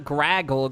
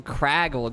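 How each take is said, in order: First: Graggle said with a hard G at the start; wrong name Graggle. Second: Craggle said with a hard K sound at the start; right name Craggle. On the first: Correcting the chat, the mistaken name Graggle with a G. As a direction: say Graggle, G sound first, as the wrong version. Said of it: "Not Graggle with a G". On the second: Correcting the chat, the proper name Craggle with a K sound. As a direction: say Craggle with a C, firm and final. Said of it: "Like, with a C". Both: Shown as a demonstration.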